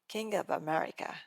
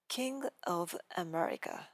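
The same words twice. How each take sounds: First: The V is linked straight into the next vowel. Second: The V is kept apart from the next vowel.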